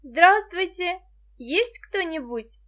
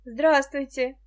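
First: Loud, high call, drawn out at the end. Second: Welcoming hello, voice a little raised; friendly greeting. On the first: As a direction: call to see who's home. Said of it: "крикнула". (громкий оклик) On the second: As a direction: greet a visitor kindly. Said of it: "приветливо сказала она". (приветливо) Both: A narrator's reading.

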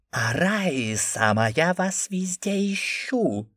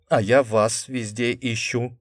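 First: Slow, high eldritch voice; inhuman voice. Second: Charming smile. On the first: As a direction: speak in an inhuman voice. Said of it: "нечеловеческим голосом". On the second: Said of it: "обаятельно улыбнулся я". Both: A narrator's reading.

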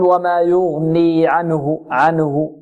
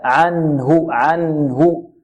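First: عنه wrongly said as "anahu", noon given a vowel; faulty عنه with a moving noon. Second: عنه slowly, resting on a vowelless ن before هُ; slow, correct عنه with clear noon; still noon. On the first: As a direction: slip a short vowel after the ن in عنه. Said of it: "نحذر من تحريك النون هنا". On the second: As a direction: hold the ن of عنه clean and still, "an-hu". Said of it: "نحذر من تحريك النون". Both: Shown as a demonstration.

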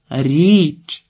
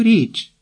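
First: «Річ» called out with a long vowel; drawn-out, raised «Річ»; shouted into ear. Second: Said in the usual way. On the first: A narrator's reading. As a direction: shout «Річ» as a correction to someone who misheard. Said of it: "крикнула Марта їй на вухо".

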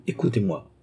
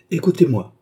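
First: Calm and steady. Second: Firm, raised, commanding call. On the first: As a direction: settle him down gently. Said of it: "geste qui commandait le calme". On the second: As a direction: cut him off firmly. Doctor silences angry Philippe. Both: A narrator's reading.

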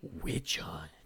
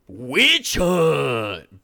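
First: Breathy menacing whisper of "Witch hunt". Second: "Witch hunt!" yelled full force, higher; screaming. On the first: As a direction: hiss "Witch hunt" low and voiceless. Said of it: "Braun whispered". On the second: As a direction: roar "Witch hunt!" as a battle cry. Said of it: "Braun screamed at the top of his lungs". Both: Acted.

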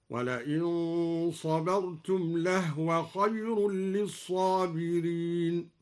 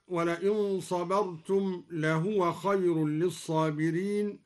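First: Slow chant, لهو read lehwa with the ha unvowelled; silent ha in لهو. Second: Said in the usual way. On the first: Shown as a demonstration. Teacher recites al-Duri's reading, لهو said as lehwa. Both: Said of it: "سكن الهاء هكذا".

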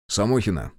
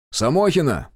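First: Said in the usual way. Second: Calling out. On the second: Acted. Officer summoning Samokhina from behind the door, calling loud. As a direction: summon her, higher and louder.

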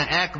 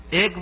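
First: এক in the native Bengali form, shown as the correct one; right pronunciation. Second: এক said the non-Bengali way, as the Bihari speakers say it; এক with the outsider's vowel, shown as the wrong form; wrong pronunciation. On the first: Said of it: "এক বলি". (সঠিক বাংলা উচ্চারণে এক) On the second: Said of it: "এক বলি না". (ভুল উচ্চারণে এক) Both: Shown as a demonstration.

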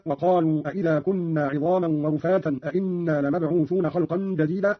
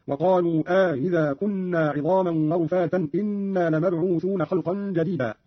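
First: Said in the usual way. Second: Slower, أإذا with two hamzas, إنا with just one; Qalun's question-then-statement. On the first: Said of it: "قرأ قالون بالاستفهام في الأول". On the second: Shown as a demonstration. Teacher showing Qalun's reading, slow, إنا as one-hamza "inna". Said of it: "والإخبار في الثاني أي بهمزة واحدة هكذا".

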